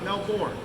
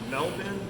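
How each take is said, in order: First: It is said the American, Florida way. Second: It is said the local Australian way. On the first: It names the town in Florida. The speaker calls it wrong. "not Melbourne. That's in Florida" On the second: It names the Australian city as locals do. The speaker calls it right. "If you want to be on the in, it's Brisbane and it's Melbourne"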